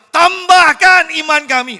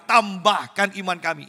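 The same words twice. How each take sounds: First: High, loud and slow cry; shouted unison plea. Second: A little louder plea; disciples' unison plea. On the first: Shown as a demonstration. Preacher showing the disciples crying out together, loud slow shout. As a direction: shout it all at once like a crowd. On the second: Retold or imitated. Preacher voicing the disciples pleading together, a touch louder. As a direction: say it together as one voice. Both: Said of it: "Ini serempak".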